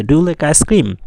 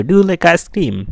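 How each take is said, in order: First: Cream hit hard, falling at the end; stress on cream. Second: You punched high and loud, the rest slow; stress on you. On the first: Teacher showing students to stress cream. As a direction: land the weight on cream. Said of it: "তো আমরা এভাবে পড়বো". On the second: Teacher showing students to stress you. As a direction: lean hard on the word you. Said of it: "আমাদেরকে জোর দিয়ে পড়তে হবে". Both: Shown as a demonstration.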